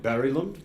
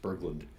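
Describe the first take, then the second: First: The g is softened into a y-like glide. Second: The g is sounded as a hard stop. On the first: The speaker calls it right. "I'm told it should be something more like Barrylund" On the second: The speaker calls it wrong. "I say the G good and hard"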